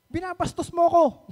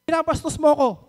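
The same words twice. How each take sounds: First: Imitating her sudden loud, high outburst; a retold flare of temper, pitched up; sudden angry accusation. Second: Imitating a loud, high angry accusation. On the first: Housemate mimics the woman suddenly snapping at her, angry outburst. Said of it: "bigla magagalit". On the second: Woman passing the dining table accuses the speaker, loud angry imitation. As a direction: throw the accusation out loud and pitched up. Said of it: "sabi niya".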